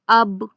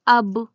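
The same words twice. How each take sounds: First: The lips part with a bounce on the b. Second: The lips part with a bounce on the b.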